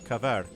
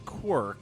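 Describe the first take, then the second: First: The W is pronounced as a V sound. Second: The W is pronounced as a W sound. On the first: "I don't know why I say it with an accent" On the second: "As opposed to Quirk if you're American"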